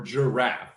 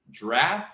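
First: "giraffe" split as jur-AFF; "giraffe" with the first vowel sounded; two syllables. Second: "Giraffe" as "draff", rising; "Giraffe" without its first vowel; one syllable. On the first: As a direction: try "giraffe" in two careful beats. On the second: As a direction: try "Giraffe" in one beat, questioning. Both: Shown as a demonstration. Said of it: "You're saying it's two syllables?".

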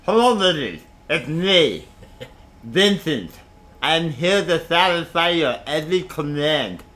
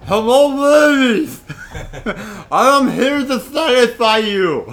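First: A lightly voiced thick-tongued lover; slow, thick-tongued smooth talker; big-tongued voice. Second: Slow, loud, thick-tongued ladies' man; big-tongued voice. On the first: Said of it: "he'd talk like this". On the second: Pretend. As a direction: talk like your tongue is too big. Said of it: "he can't talk".

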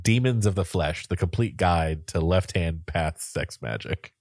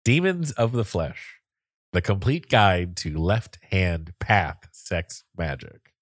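First: Said in the usual way. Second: Slow, deliberate title reading; slower repeat. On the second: Shown as a demonstration. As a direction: spell out the title phrase by phrase. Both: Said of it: "Do you want to say it slower".

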